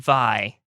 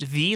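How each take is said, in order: First: The name does not rhyme with bee. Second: The name rhymes with the word bee. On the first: The speaker calls it wrong. "I was saying it Vi" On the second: The speaker calls it right. "it is pronounced V like B"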